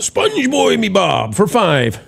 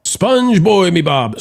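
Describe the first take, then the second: First: Slow, stretched-out cartoon sponge voice; SpongeBob voice. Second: Said in the usual way. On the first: Host reads a donor name in a SpongeBob voice. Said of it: "thank you, SpongeBob".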